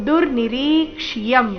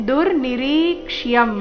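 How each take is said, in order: The two takes are said the same way.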